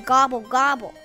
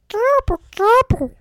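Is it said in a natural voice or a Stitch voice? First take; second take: natural; Stitch voice. First: It is said in a natural voice. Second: It is said in a Stitch voice.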